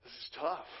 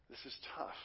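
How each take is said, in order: First: Said in the usual way. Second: Whispered. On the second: Real, not acted. Repeated line, hushed repeat.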